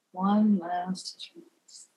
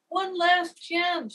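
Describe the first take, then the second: First: Very slow, low, resigned. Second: High, slow pleading cry; begging cry. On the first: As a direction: give in wearily. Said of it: "in a resigned voice". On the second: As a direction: beg it out desperately. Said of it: "she cried out, begging". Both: A narrator's reading.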